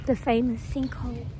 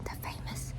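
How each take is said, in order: First: Said in the usual way. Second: Hushed breathy whisper. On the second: Acted. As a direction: whisper it like a secret. Voiceover intro for the sinkhole.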